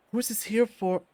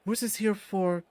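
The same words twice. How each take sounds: The two takes are said the same way.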